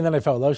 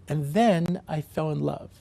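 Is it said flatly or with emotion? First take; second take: flatly; with emotion. First: It is said flatly, just stating a fact. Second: It is said with strong, gushing emotion.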